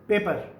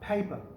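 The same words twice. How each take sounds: First: It is said with a Pakistani accent. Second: It is said with a British accent.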